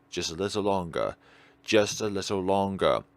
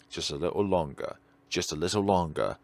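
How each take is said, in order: Both takes have the same delivery.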